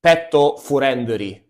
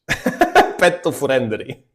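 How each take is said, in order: First: "Petto Furendri" read slowly, Japanese-style vowels; Japanese English reading. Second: "Petto Furendri" slow and laughing. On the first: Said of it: "they wrote in English". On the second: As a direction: chuckle through "Petto Furendri". Repeating the funny sign. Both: Retold or imitated.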